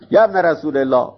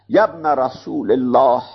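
First: It is spoken in a plain conversational way. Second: It is spoken with exaggerated, throaty articulation. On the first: The speaker is truly talking to the listener. The speaker calls it right. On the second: The speaker is performing the words, not talking to someone. The speaker calls it wrong.

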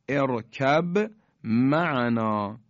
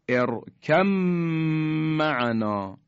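First: The b sound is pronounced before the m. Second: The b sound merges into the m. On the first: "ارکب یعنی با ساکنه به حرف میم رسیده" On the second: "یعنی حرف با در میم ادغام شد، یعنی ما دیگه حرف با رو تلفظ نمی کنیم"

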